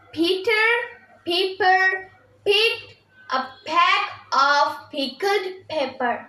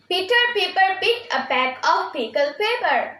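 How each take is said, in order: First: The sentence is said at a slow pace. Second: The sentence is said at a quick pace.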